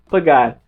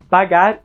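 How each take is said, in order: First: The first a is closed, European style. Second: The first a is open, Brazilian style. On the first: "A mais fechado no português europeu" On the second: "A mais aberto no português brasileiro"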